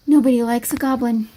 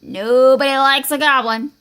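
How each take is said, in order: First: Understated, glum admission; resigned echo. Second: Troll's warning. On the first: Goblin hiding in the cave with Skeleton, glumly resigned. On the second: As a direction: warn him heavily as a troll. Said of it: "said the troll". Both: Acted.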